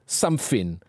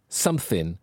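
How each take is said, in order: The two takes are said the same way.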